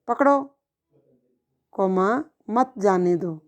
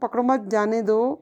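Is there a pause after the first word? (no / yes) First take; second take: yes; no. First: There is a pause after the first word. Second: It is said continuously without any pause. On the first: "थोड़ा अंतराल ले आऊं" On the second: "continue बोलती हूँ"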